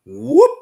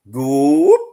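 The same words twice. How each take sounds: First: Slow drawn-out whoop demo; whoop call. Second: High, loud whoop shouted into the woods; loud whoop call. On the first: Shown as a demonstration. Hunter showing the podcast host the call, a drawn-out whoop. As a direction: show the bigfoot whoop call. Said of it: "whoop, like that right there". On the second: Retold or imitated. Hunter calling Bigfoot from the woods, a high loud whoop. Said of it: "I did a real loud".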